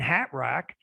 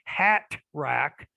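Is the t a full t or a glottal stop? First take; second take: glottal stop; full t. First: The t is said as a glottal stop. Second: The t is said as a full t. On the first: "then you are using the glottal stop" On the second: "then you don't use the glottal stop"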